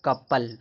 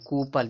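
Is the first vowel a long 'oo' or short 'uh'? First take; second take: short uh; long oo. First: The first vowel is a short 'uh' sound. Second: The first vowel is a long 'oo' sound. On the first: The speaker calls it right. "इसको कपल पढ़ेंगे" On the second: The speaker calls it wrong. "कुछ लोग कूपल पढ़ते हैं, जबकि कूपल नहीं है"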